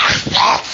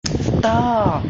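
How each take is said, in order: First: Breathy voiceless stop; whispered stop. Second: Said in the usual way. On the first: Shown as a demonstration.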